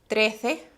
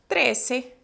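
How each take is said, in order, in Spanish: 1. La "c" suena como "th", con la lengua entre los dientes. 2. La "c" suena como "s". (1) "en España... poner la lengua entre los dientes" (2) "en América, nosotros pronunciamos como si fuera la cedilla de ustedes"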